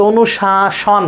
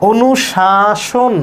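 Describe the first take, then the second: First: অনুশাসন slowly, ending in open "-shawn"; slow "o-nu-shaa-shawn", offered as option; alternative pronunciation. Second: অনুশাসন stretched slowly, ending in "-shon"; slow "o-nu-shaa-shon"; first option, drawn out. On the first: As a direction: draw it out with an open vowel in the last syllable. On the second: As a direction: draw out each syllable, round o in the last. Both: Shown as a demonstration. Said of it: "নাকি অনুশাসন".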